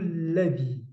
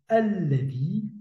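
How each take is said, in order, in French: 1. Le mot commence directement par le son l. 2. Le mot commence par un son voyelle initial. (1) "mais plutôt" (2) "je n'ai pas dit"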